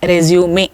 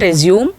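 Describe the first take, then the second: First: The stress falls on the E. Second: The stress does not fall on the E. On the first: The speaker calls it right. "it is always resume" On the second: The speaker calls it wrong. "It is not resume"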